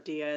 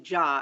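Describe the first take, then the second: First: The surname begins with a 'D' sound. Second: The surname begins with a 'J' sound. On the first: The speaker calls it wrong. "as everyone has pronounced" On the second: The speaker calls it right. "as it's pronounced"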